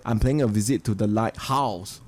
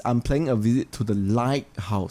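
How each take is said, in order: First: "lighthouse" with weight wrongly on "house"; light-HOUSE, second word strong; stress on house. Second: "lighthouse" with weight on "light"; LIGHT-house, first word strong; stress on light. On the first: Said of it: "You don't emphasize on the second word". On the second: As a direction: make "light" the prominent part of "lighthouse". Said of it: "So lighthouse, emphasize on the light". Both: Shown as a demonstration.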